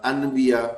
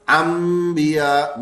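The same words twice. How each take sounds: First: انبیاء with a distinct n before the b; literal pronunciation. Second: انبیاء as "ammmbiya", with a long held m; meem sound. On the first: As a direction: say the written noon in انبیاء. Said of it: "کوئی بھی اس کو انبیاء نہیں پڑھتا". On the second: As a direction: hum a long m before the b in انبیاء. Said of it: "میم کی آواز نکالتے ہیں سبھی". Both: Shown as a demonstration.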